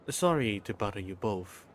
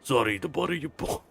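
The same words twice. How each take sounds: First: It is said in a normal voice. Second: It is said in a put-on character voice.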